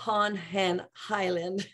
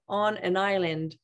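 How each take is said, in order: First: An exaggerated breathy h comes before island. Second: The n links smoothly into island, no h. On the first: The speaker calls it wrong. "pas on an island. J'exagère" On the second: The speaker calls it right. "on va dire on an island"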